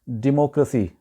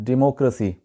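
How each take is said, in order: No difference in how they are said.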